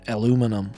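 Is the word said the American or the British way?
American. It is said with four syllables, American style. The speaker calls it wrong. "as you Americans would say"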